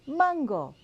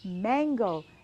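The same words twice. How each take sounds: First: It is pronounced with Spanish sounds. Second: It is pronounced with English sounds. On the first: "Let's say it in Spanish" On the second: "like the English word mango"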